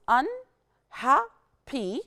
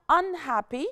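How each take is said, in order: First: "unhappy" very slowly as un, ha, ppy; syllable by syllable. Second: Said in the usual way. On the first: Shown as a demonstration. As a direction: count out the three syllables of "unhappy" with clear gaps. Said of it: "three syllables". (تقطيع "unhappy" لتلات مقاطع ببطء شديد) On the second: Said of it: "Of course, it's three syllables".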